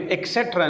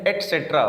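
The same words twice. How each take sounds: First: ایکسیٹرا with k sound; k before the s in ایکسیٹرا; mispronounced et cetera. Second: ایٹسیٹرا with t sound; t before the s in ایٹسیٹرا; correct et cetera. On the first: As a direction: say "ek-setra" for ایکسیٹرا. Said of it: "ایکسیٹرا نہیں ہے". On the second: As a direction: say "et-setra" for ایٹسیٹرا. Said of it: "بلکہ یہ ہے ایٹسیٹرا". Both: Shown as a demonstration.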